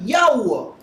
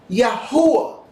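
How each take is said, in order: First: The H sound is almost silent. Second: The H sound is clearly pronounced. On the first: The speaker calls it right. "the H is actually almost silent" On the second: The speaker calls it wrong. "some even pronounce it incorrectly"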